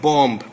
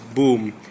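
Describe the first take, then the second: First: The word does not rhyme with 'tomb'. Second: The word rhymes with 'tomb'. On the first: "Why isn't bomb" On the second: "pronounced boom"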